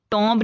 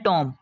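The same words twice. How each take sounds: First: "टॉम्ब" with the final b sounded; wrong pronunciation. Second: "टॉम" ending on m, no b; silent b. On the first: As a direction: pronounce the silent b in "टॉम्ब". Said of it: "नहीं पढ़ना". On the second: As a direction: drop the b at the end of "टॉम". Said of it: "इसको हमने पढ़ना है". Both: Shown as a demonstration.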